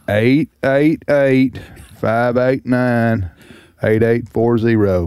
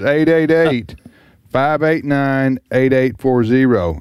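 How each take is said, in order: First: It is said slowly, in a drawl. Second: It is said at normal speed.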